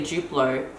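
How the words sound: Duplo is said with an Australian pronunciation. "in Australia we would say Duplo because we pronounce a D U that way"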